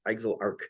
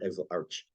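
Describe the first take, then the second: First: The word ends with a hard k sound. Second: The word ends with a ch sound. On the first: The speaker calls it right. "It's exil arc" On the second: The speaker calls it wrong. "not exil arch"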